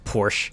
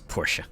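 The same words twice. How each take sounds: First: The name is said with one syllable. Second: The name is said with two syllables. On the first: The speaker calls it wrong. "I actually mispronounced Porsche. I thought it was pronounced Porsche" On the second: The speaker calls it right. "so now I know it's Porsche"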